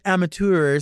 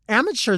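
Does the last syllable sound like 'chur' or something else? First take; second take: something else; chur. First: The last syllable is not pronounced like 'chur'. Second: The last syllable is pronounced like 'chur'. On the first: It sounds showy and pretentious. "amateur sounds like, oh, okay, that's going to be enough of that" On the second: It sounds ugly. "that's like chur. That's ugly"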